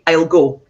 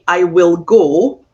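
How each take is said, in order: First: The word will is contracted onto I. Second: The word will is said in full. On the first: The speaker calls it right. "I'd say" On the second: The speaker calls it wrong. "I would not say"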